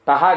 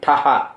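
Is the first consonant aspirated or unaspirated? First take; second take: unaspirated; aspirated. First: The first consonant is said without aspiration. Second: The first consonant is said with strong aspiration. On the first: The speaker calls it wrong. "టహ కాదండి" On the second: The speaker calls it right. "రెండోది ఒత్తు టా, అది కూడా స్పష్టంగా పలకాలి"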